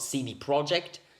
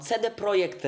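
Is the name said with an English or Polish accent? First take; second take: English; Polish. First: The name is said with an English accent. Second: The name is said with a Polish accent. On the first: "it's not" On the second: "I said that with a Polish accent"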